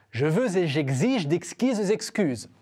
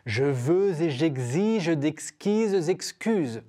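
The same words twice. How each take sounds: First: Said in the usual way. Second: "Je veux et j'exige d'exquises excuses" slow, every liaison linked. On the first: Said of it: "Une deuxième phrase". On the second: Shown as a demonstration. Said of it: "c'est de faire les liaisons".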